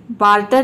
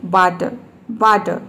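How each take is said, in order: First: बार्टर with both r's sounded, the wrong way; wrong pronunciation. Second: बार्टर as 'baa-tuh', r silent. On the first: Teacher showing students the wrong बार्टर. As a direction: say बार्टर as 'baar-tar' with full r's. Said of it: "बार्टर नहीं". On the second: Teacher modelling बार्टर, r silent. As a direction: say बार्टर without any r. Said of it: "ये होता है बार्टर". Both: Shown as a demonstration.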